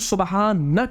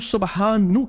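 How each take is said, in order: First: The word ends with an 'a' vowel. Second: The word ends with a 'u' vowel. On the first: The speaker calls it right. "हम सुबहाना क्यों पढ़ते हैं" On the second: The speaker calls it wrong. "हम सुबहानु क्यों नहीं पढ़ते"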